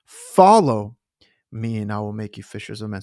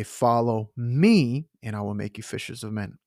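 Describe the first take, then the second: First: Big accent on "Follow", the rest thrown away; stress on Follow. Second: Light lift on "me" in "Follow me"; gentle emphasis on "me"; stress on me. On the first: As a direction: hit "Follow" hard, then rush the rest. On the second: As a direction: lean a little on "me", rest even. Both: Shown as a demonstration. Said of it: "So I'm emphasizing certain words of the verse".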